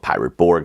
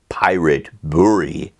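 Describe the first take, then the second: First: Borg is said with an English pronunciation. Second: Borg is said with a Swedish pronunciation. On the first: "most people just call it" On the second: "if you were pronouncing it in Swedish"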